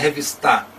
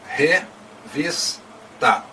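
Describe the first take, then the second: First: The stress is on the last syllable. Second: The stress is on the middle syllable. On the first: The speaker calls it wrong. "Não é revistar, não pode ser a última" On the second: The speaker calls it right. "é revista"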